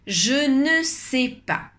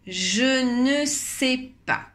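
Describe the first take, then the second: The two takes are said the same way.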